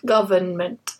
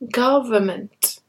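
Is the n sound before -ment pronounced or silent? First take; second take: pronounced; silent. First: The n before -ment is pronounced. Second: The n before -ment is not pronounced. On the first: The speaker calls it wrong. "not government" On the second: The speaker calls it right. "that N is silent"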